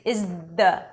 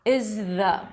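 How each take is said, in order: First: The th sounds like a d. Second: The th is soft and breathy. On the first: The speaker calls it wrong. "It's going to sound like a D" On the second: The speaker calls it right. "Soft. Very light"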